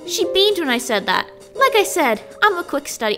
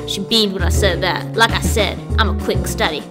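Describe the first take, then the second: First: It is read in a put-on character voice. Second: It is read in the natural speaking voice. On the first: The speaker calls it wrong. "I was doing it in Marie's voice" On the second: The speaker calls it right. "I want to do it again in my voice. Sounds cooler"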